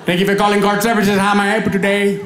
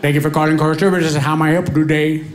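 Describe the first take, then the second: First: Put-on Indian call-centre accent, repeated. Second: Lightly voiced call-centre agent, rapid Indian accent. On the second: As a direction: greet like an Indian phone agent. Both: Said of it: "customer service representative".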